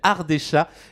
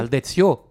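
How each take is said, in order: First: The word ends with an 'a' vowel. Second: The word ends with an 'o' vowel. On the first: The speaker calls it wrong. "moi je pensais qu'il y avait un rapport avec les minous" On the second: The speaker calls it right. "Ardécho, d'accord, c'est du patois"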